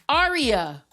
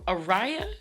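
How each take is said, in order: First: The middle syllable sounds like 'ree'. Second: The middle syllable sounds like 'ray'. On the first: The speaker calls it right. "that's exactly how it's pronounced" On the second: The speaker calls it wrong. "And I just said Araya"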